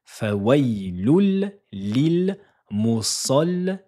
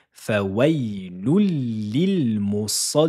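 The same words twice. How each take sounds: First: Fawailul lil musallin slow and louder with the lam held; teacher stressing the doubled lam; doubled lam emphasized. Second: Fawailul lil musallin drawn out slowly; teacher modelling the full phrase slowly; slow careful recitation. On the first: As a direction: lean hard on the double L in Fawailul. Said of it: "Dédoublement de la lettre lem". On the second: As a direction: recite each syllable slowly and clearly. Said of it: "en gonflant l'arrière de la langue". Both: Shown as a demonstration.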